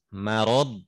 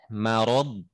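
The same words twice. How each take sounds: The two takes are said the same way.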